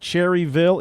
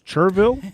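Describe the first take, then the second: First: The name is said fully, as it is spelled. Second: The name is said shortened, the local way. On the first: The speaker calls it wrong. "it's not Cherryville" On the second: The speaker calls it right. "it's Cherville"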